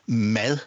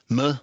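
First: The vowel is pronounced clearly and fully. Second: The vowel is swallowed, sounding like mød. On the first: "Og ikke siger mad" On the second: "Og det lyder ligesom mød"

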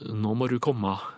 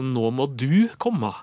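First: The word 'du' is unstressed and reduced. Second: The word 'du' is stressed and emphasized. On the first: "slik at det blir trøklet" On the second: "Hvis du skal legge på trykk og understrek"

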